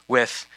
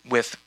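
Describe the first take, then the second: The two takes are said the same way.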